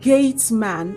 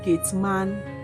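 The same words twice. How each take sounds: First: The stress is on the first syllable. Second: The stress is on the second syllable. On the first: The speaker calls it right. "the stress should go to the first syllable" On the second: The speaker calls it wrong. "and not gate man"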